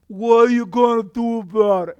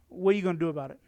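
First: It is said in a put-on Italian accent. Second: It is said in his normal accent.

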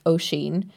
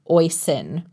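First: It does not sound like hoisin without the H. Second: It sounds like hoisin without the H. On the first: This is the Irish way of saying the name. The speaker calls it right. "it's an Irish name pronounced Oisín" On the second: This is how the child's parents say the name. The speaker calls it wrong. "like hoisin sauce without the H"

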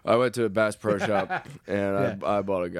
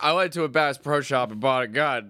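First: It is said in a gloomy, depressed tone. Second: It is said in a cheerful, upbeat tone. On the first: It was a bad thing. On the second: It was a good thing.

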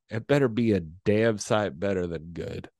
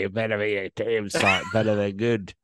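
First: It is said in the speaker's ordinary accent. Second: It is said in an imitated Australian accent.

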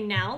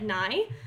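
First: It is said with a standard vowel. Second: It is said with a northern vowel, like 'nigh'.

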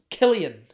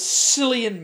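First: The name begins with a K sound. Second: The name begins with an S sound. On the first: The speaker calls it right. "the correct pronunciation in the world of Ireland" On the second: The speaker calls it wrong. "I thought it was Cillian Murphy"

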